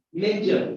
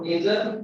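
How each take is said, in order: First: 'major' with the English J, not the Indian one; corrected J sound. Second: 'major' with the mistaken Indian-style J; wrong J sound. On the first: Teacher correcting Indian speakers, English J. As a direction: put an English J inside 'major'. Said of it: "But this is major". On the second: Teacher showing what to avoid, wrong J. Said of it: "This is not major". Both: Shown as a demonstration.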